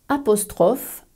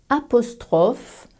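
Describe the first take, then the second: Both takes have the same delivery.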